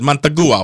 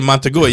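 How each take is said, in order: First: The name is said in a put-on foreign accent. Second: The name is said plainly, without an accent. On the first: "you said Montagua. Why you put an accent on it?" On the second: "instead of saying Montagua"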